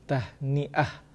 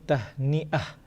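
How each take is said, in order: Both takes have the same delivery.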